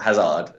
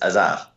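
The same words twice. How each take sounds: First: The name starts with an audible h sound. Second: The name starts with a silent h. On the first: The speaker calls it wrong. "It's not Hazard" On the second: The speaker calls it right. "it's Hazard"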